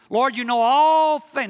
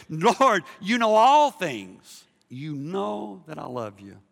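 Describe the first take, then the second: First: High, loud, drawn-out protest; mock-frustrated shout with a long ALL; exasperated outcry. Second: Slow plea, loud then softening; drawn-out ALL, settling to a gentler close; shifted, earnest plea. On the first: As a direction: cry it out, stretching ALL. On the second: Acted. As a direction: start strong and ease into sincerity. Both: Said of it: "Now, now you shift".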